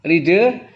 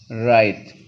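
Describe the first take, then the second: First: "Ride" sounded out as ree-duh, pitched up; read as spelled. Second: "ride" with an eye vowel, one syllable; correct English reading. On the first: Teacher showing the class the spelling, "Ride" as ree-duh. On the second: Teacher giving the class the reading, "ride" as ryde. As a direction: say "ride" as ryde, silent final e. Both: Shown as a demonstration. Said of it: "bacanya ride".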